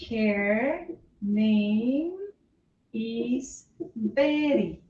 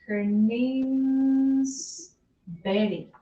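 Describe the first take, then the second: First: Name and is are said as two words. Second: Name and is are joined into one contraction.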